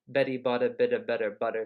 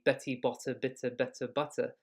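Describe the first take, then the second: First: It has an American accent with soft t sounds. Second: It has a British accent with crisp t sounds. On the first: "but English would be ... our tongue is kind of lazy" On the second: "in British English, it would be"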